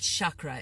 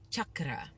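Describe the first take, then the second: First: The word is said with an English-style pronunciation. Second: The word is said with a Sanskrit-style pronunciation. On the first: The speaker calls it wrong. "it's not chakra" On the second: The speaker calls it right. "I'm throwing in some Sanskrit pronunciation"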